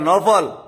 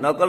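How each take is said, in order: First: The middle consonant is an f sound. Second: The middle consonant is a k sound. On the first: The speaker calls it right. "নকল না নফল" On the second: The speaker calls it wrong. "নকল না"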